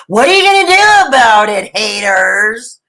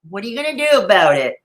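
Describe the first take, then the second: First: Mock taunt. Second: Said in the usual way. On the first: Snacking vlogger to haters, loud playful taunt. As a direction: throw it out boldly, hamming it up.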